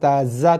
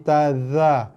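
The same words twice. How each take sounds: First: The consonant is a plain z sound. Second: The consonant uses the tongue tip, th-like. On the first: The speaker calls it wrong. "bukan taza" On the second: The speaker calls it right. "tapi taza. Ujung lidah eh"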